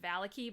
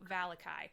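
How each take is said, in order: First: The name ends with an 'ee' sound. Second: The name ends with an 'eye' sound. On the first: This is the name's official pronunciation. "it's actually pronounced Valaki, but I hate that pronunciation" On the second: This is how the name looks when read from its spelling. "we're going with Valakai because it looks like Valakai"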